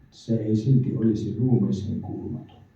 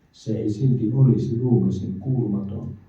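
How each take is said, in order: Both takes have the same delivery.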